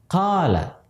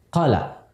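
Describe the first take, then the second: First: The long vowel is held for a moderate length. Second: The long vowel is cut too short. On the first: The speaker calls it right. "mesti dia panjangkan" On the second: The speaker calls it wrong. "terlalu pendek"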